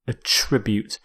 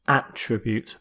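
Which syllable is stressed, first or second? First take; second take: second; first. First: The stress is on the second syllable. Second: The stress is on the first syllable. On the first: It is used as a verb. "as a verb" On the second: It is used as a noun. "as a noun where you stress the first"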